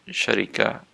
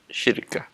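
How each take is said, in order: First: The vowels run a, then i, then a. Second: The vowels run i, then a, two syllables. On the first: "bacanya syarikah" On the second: "cara bacanya syirkah"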